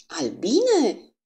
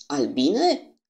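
First: A high, shouted cry of alarm. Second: A booming, thunderous question; thundering voice. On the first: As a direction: cry out the word in shock. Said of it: "strigă Poirot din nou". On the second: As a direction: thunder the word out like a storm. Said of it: "cu o voce ca de tunet". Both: Acted.

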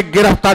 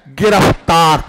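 First: Said in the usual way. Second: गिरफ्तार with an emphasised f at फ; stress on फ. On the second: Shown as a demonstration. Teacher demonstrating a Persian loanword, stress on the फ in गिरफ्तार. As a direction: lean on the f sound inside गिरफ्तार. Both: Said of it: "फा शब्द पर ज्यादा जोर दिया जाए".

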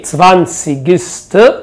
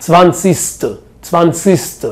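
First: Zwanzigste with every sound, "tsvan-tsig-ste"; full pronunciation. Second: Zwanzigste run together as "vansiste", the g swallowed; native slurred form. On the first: Shown as a demonstration. Teacher gives the careful form before the native slurred one. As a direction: say Zwanzigste fully, the g clearly heard. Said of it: "سمعت برضو الماني يقول لك ايه؟". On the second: Retold or imitated. Teacher imitates how a German merges sounds in the word, softly. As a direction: slur Zwanzigste like a German would, merging the middle. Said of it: "زي ما يكون كده بيحط لها ادغام".

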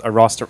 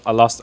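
First: Fake Chinese accent. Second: Said in the usual way. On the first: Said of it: "fake Chinese". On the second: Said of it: "fake Chinese?".

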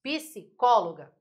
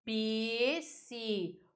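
First: "psicóloga" slowly in two chunks, psi, cóloga; separated word. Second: "psicóloga" drawn out slowly, each syllable held apart. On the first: Teacher repeating the example word, "psicóloga" split slowly in two. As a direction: pause inside "psicóloga" after psi, then cóloga together. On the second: Teacher separating the word for students, "psicóloga" in slow separate syllables. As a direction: stretch "psicóloga" into pi, si, có, lo, ga. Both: Shown as a demonstration. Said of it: "Se você vai separar a palavra psicóloga".

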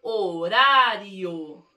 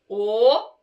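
First: "Horário" joined up, slow, long RA; sílabas juntadas. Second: "Horário" as o, ra, rio with long pauses; sílaba por sílaba. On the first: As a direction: blend "Horário" into one drawn-out word. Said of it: "eu juntei e formei uma palavra". ("Horário" inteira, alongada, sem pausas) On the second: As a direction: isolate each syllable of "Horário", louder. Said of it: "Vamos ver?". ("Horário" silabado, com pausas longas) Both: Shown as a demonstration.

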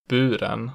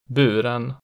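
First: Buren with pitch rising into a peak on the stressed vowel; accent two pitch. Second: Buren with an immediate pitch peak; accent one pitch. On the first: Teacher playing minimal pairs, buren with later-peak accent two. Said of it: "the pitch rises into peak on the stressed vowel". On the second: Teacher playing minimal pairs, Buren with early-peak accent one. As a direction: say Buren with the single peak right at the start. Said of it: "The peak in accent one is immediate". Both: Shown as a demonstration.

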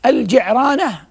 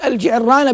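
First: الجعرانة as al-Ji'rana, slowly, r not doubled; light-r pronunciation. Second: الجعرانة as al-Ji'irrana, stressed double r; doubled-r pronunciation. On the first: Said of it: "بكسر العين والج-، وسكون الراء". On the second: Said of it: "بالتضعيف بالتشديد". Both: Shown as a demonstration.

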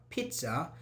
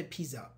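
First: "pizza" with a crisp ts, "peetsa"; careful "peet-sa"; correct pronunciation of pizza. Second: "pizza" with a soft z, no t sound; wrong pronunciation of pizza. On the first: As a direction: say "pizza" with a t before the s. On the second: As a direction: say "pizza" as "peeza". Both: Shown as a demonstration. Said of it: "we don't say pizza".

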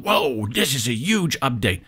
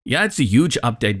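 First: Mock awe, drawing out the whoa; tongue-in-cheek hype. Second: Mildly cynical, unimpressed agreement; dry, understated sarcastic "yeah"; a little sarcasm. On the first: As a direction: imitate overexcited online hype, tongue in cheek. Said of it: "do the tongue-in-cheek thing again". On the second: Real, not acted. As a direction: concede it with a touch of sarcasm. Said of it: "a little bit of sarcasm in my voice".

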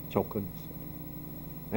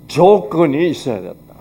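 First: 조건이 said much softer, nearly murmured; 조건이 echoed quietly to the congregation. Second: 조건이 stressed with a falling close; 조건이 stressed, spoken firmly to the congregation; emphatic. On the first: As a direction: repeat 조건이 under your breath. Repeated key phrase, softer. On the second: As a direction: lean on 조건이 and land it firmly. Repeated key phrase. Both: Shown as a demonstration.

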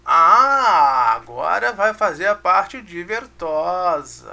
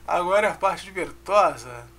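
First: Loud drawn-out Ah, then a slow playful build-up; playful announcement. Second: Said in the usual way. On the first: Acted. Teacher hyping the fun part to students, loud and slow.

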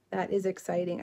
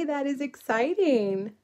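First: Said in the usual way. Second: Slow, higher, drawn-out delight at a viewer's news; excited reply. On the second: Real, not acted. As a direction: savor each word, lifting the pitch. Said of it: "you prayed for snow".

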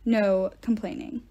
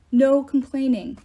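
First: Said in the usual way. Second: Louder, slow order, stress on No; stern louder command. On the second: Acted. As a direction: bark the rule down firmly. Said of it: "Quintus ordered".

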